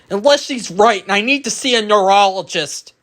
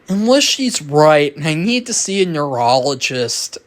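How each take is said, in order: First: It is said in a nervous, panicky way. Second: It is said in a relaxed, casual way. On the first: "I'm gonna panic and I'm just gonna I'm just gonna talk like this" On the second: "they're very casual"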